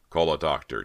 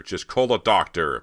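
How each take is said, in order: First: Raised-voice urgent order; shout. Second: Loud, higher-pitched urgent shout; harder shout. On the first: Bo to the crew for the injured Persia, shout. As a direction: call out for help urgently. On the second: Bo repeats his order to the crew, louder shout. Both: A narrator's reading. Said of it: "Bo shouted".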